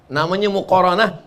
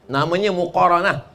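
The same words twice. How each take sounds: Both takes have the same delivery.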